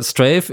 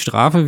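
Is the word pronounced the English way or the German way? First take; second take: English; German. First: The word is pronounced as an English word. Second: The word is pronounced as a German word. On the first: It names the title of the game. The speaker calls it right. "Strafe ist nicht die Strafe" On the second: It means punishment. The speaker calls it wrong. "wie man es auf Deutsch lesen würde"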